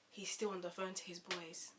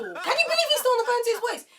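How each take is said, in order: First: Said in the usual way. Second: Very high, loud squawk of disbelief; incredulous outburst. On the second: Retold or imitated. Asking viewers about his endless call, incredulous outburst. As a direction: blurt it out in comic outrage.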